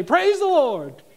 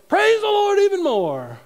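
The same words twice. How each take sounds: First: High, loud, drawn-out hallelujah cry; mock praise shout. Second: Very high, very loud mock jubilation; over-the-top praise shout. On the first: Preacher jokes about praising over an empty bank account, mock shout. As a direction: shout it in pretend jubilation. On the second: Preacher jokes about praising harder when overdrawn, over-the-top mock shout. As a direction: belt it out, hammed-up, at full volume.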